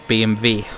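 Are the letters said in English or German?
German. The letters are said with German letter names. "obviously in German, you would pronounce it"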